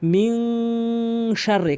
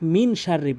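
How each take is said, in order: First: The n is held with a nasal hum. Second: The n is a plain, short n sound. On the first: The speaker calls it right. "এখানে কিন্তু অবশ্যই গুণনা করতে হবে" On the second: The speaker calls it wrong. "অধিকাংশ লোক মিন শাররি বলি"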